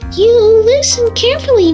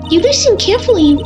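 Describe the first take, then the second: First: The voice is higher pitched. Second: The voice is lower pitched. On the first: The speaker calls it right. "it's just higher pitched" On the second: The speaker calls it wrong. "I don't like that"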